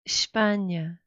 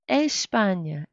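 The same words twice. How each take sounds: First: The first E is very soft, almost silent. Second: The first E is fully and clearly pronounced. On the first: The speaker calls it right. "the E is not very clearly pronounced" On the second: The speaker calls it wrong. "it sounds not Portuguese, even a little bit Spanish"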